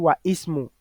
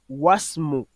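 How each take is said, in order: First: The i of ismu is pronounced separately. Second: The i is dropped, linking into wasmu. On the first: The speaker calls it wrong. "on va pas dire wa ismu" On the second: The speaker calls it right. "on dira wasmu"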